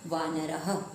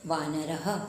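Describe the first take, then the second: No difference in how they are said.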